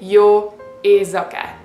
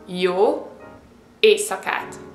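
First: The middle consonant is voiced like a Z. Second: The middle consonant is voiceless like an S. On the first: The speaker calls it wrong. "You don't say jó éjszakát. It's not a Z" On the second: The speaker calls it right. "You have to say S"

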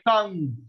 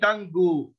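First: The word ends without an extra vowel. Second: An extra vowel follows the final g sound. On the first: The speaker calls it right. "like tongue" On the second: The speaker calls it wrong. "You don't say tango"

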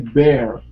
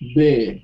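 First: It is said in an American accent. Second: It is said in a British accent. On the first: "In American, you would say bear" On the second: "Bear is like in British"

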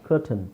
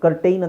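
First: The last syllable sounds like a short 'tun'. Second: The last syllable sounds like 'tain'. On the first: The speaker calls it right. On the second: The speaker calls it wrong. "ಕರ್ಟೈನ್ ಅಂತ ಹೇಳ್ತೀವ? ಇಲ್ಲ"

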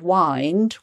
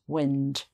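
First: The vowel is long, rhyming with find. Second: The vowel is short, as in windy. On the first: It means to coil something into a ball. "when you wind some cotton or some wool, you wind it into a ball" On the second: It means moving air in the weather. "when it's a windy day in the weather"

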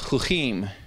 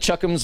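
First: The word ends with an 'eem' sound. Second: The word ends with an 'ums' sound. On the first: The speaker calls it right. "It's called a chukim" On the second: The speaker calls it wrong. "he didn't know quite how to pronounce it"

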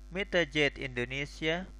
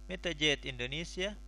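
Both takes have the same delivery.

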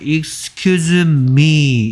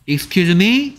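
First: The voice falls at the end. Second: The voice rises at the end.

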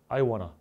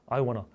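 Both takes have the same delivery.

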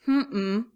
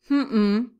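The two takes are said the same way.

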